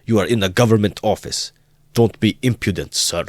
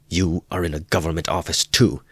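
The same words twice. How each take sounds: First: High, loud furious shout, GOVERNMENT stressed. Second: Mild retort. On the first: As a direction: shout at the student in a rage. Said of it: "so furious". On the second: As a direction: throw the words back at the officer. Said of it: "cried Raskolnikov". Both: A narrator's reading.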